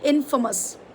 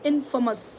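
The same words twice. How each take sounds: Both takes have the same delivery.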